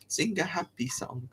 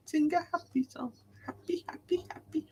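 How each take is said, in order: First: Hushed, playful little whisper; light whispered aside. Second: Very high, soft silly voice; tiny high-pitched happy chant; playful high voice. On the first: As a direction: whisper it softly to yourself. Chanting to himself playfully. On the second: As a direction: squeak it softly, playfully. Echoes the phrase in silly voice. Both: Pretend.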